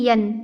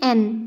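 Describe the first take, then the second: First: It begins with a y sound. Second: It begins with a plain vowel sound. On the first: The speaker calls it wrong. "ना कि यन" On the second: The speaker calls it right. "एन ना कि यन"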